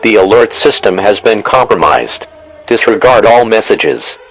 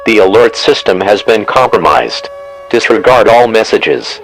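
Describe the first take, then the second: No difference in how they are said.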